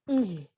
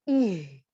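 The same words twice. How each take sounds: First: The h is moderate, from the lower throat. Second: The h is forced and exaggerated from the chest. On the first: The speaker calls it right. "biasa aja dia ucapkannya... dari tenggorokan yang bawah" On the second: The speaker calls it wrong. "kalau berlebihan, dia keluarnya justru dari dada"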